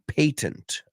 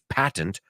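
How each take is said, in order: First: It is said with a British pronunciation. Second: It is said with an American pronunciation. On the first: "Los británicos dicen patent ahí" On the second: "Nosotros patent"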